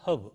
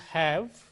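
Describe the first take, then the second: First: The vowel is reduced and quickly said. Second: The vowel is full and clearly pronounced. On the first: "the weak form is have" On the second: "Strong form is have"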